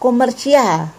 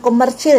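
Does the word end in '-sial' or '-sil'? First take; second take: -sial; -sil. First: The word ends with the syllables '-si-al'. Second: The word ends with the single syllable '-sil'. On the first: The speaker calls it right. "Ada lagi kata komersial" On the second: The speaker calls it wrong. "bukan komersil ya"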